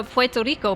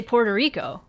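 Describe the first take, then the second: First: Puerto Rico said the Spanish way; "Puerto Rico" as pweh-toh REE-koh; Spanish pronunciation. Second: Puerto Rico said the plain English way; "Puerto Rico" as por-duh REE-ko; Anglicized Puerto Rico; English pronunciation. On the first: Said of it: "would not say Puerto Rico unless he was speaking Spanish". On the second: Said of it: "how you would say it in English". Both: Retold or imitated.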